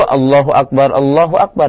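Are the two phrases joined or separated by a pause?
joined. Both phrases are joined together in one breath. The speaker calls it right. "dibaca dalam satu napas"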